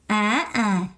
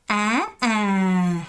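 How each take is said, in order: First: 아 rising, second 아 cut short without the long fall; learners' wrong tone. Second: 아 rising, then 아 drawn out and falling; teacher's model of 아, 아; correct descending tone. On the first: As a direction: drop the second 아 briefly. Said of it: "많은 분들이". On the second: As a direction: lift the first 아, let the second slide long down. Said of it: "하고 내려가야 되는데". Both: Shown as a demonstration.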